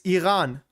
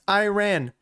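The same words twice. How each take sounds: First: Iran is said with a German pronunciation. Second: Iran is said with the speaker's home pronunciation. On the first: "In Germany, it's Iran" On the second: "Where I'm from, it's pronounced Iran"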